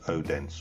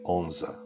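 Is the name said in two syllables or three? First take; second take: three; two. First: The name is said in three syllables, O-den-se. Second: The name is said in two short syllables, On-se. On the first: This is how outsiders read it from a map. The speaker calls it wrong. "that's how we would pronounce it" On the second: This is how local people say it. The speaker calls it right. "the locals actually call it Onse"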